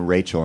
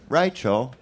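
First: Said in the usual way. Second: Rachel in a lightly put-on Australian accent, slowly. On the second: Shown as a demonstration. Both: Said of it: "say the name Rachel in Australian".

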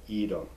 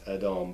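First: "Edom" said as EE-dum; long ee opening "Edom"; common pronunciation. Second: "Edom" said as eh-DOM; short e and open second vowel in "Edom"; original pronunciation. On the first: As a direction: say "Edom" the familiar English way, EE-dum. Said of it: "one of those common names". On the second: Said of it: "It's Edom". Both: Shown as a demonstration.

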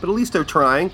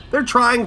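First: Said in the usual way. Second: They're trying, pitched high and loud, repeated for emphasis; stress on trying. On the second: Shown as a demonstration. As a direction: punch They're trying, higher and louder. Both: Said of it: "They're trying, people".

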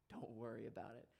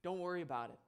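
First: Soft, quiet "Don't worry about it" said lower and hushed; gentle reassurance. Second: "Don't worry about it" with a catch of emotion, slightly raised; close to tears. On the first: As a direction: say "Don't worry about it" softly to comfort the boy. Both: Retold or imitated. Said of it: "As I'm about to cry".

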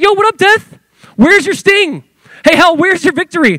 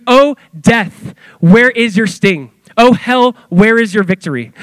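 First: Much higher, louder cocky street swagger; Paul mocking death to its face; taunting death. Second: Higher, measured proclaiming of the verse; Paul's solemn challenge to death; solemn scripture quote. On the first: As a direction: taunt death like calling out a rival. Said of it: "Paul starts taunting death". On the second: Retold or imitated. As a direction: declaim it like scripture read aloud. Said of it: "He goes".

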